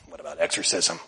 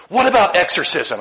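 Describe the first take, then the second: First: Lower, softer disbelieving repeat with rising end; quiet stunned repetition; incredulous echo. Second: Higher, louder curious asking; earnest young man's question; eager question. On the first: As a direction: echo it back, baffled. Echoes question back in disbelief. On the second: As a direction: ask it like it's an everyday question. Quotes young man's odd question. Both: Retold or imitated.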